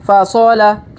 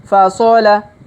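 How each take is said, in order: No difference in how they are said.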